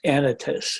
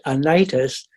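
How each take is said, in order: First: The stress is on the first syllable. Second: The stress is on the second syllable. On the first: The speaker calls it right. "it's pronounced Anytus. usually the Greek names are pronounced on the on the third to last syllable" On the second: The speaker calls it wrong. "I've been all these years pronouncing it Anitus"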